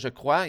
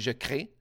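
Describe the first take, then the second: First: The vowel is said like 'wa'. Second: The vowel is said like 'eh'. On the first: "au lieu de dire je crois" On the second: "il dit je crée"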